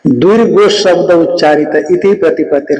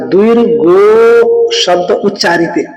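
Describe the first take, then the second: First: Said in the usual way. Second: द्विर्गो शब्द उच्चारित recited slowly, each word weighed; slow sutra recitation. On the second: Shown as a demonstration. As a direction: read out the Sanskrit line slowly and deliberately. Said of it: "इसलिए कहा". (सूत्र का धीमा पाठ)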